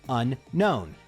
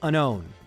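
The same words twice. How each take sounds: First: Two separate N sounds are heard in the word. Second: Only one N sound is heard in the word. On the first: The speaker calls it right. "There's two distinct N sounds" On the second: The speaker calls it wrong. "We don't say unknown"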